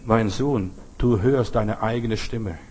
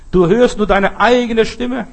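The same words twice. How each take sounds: First: Low, slow, gentle explanation; smiling father. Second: High, loud, slow emphasis on EIGENE; emphatic. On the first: Acted. Father tells his son about the echo, calm low voice. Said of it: "Der Vater lächelt". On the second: Real, not acted. Preacher drives home the point, slow and emphatic.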